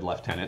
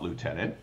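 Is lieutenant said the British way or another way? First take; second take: British; other. First: It is said with the British pronunciation. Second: It is said with a non-British pronunciation. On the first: "you notice I said lieutenant" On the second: "not lieutenant"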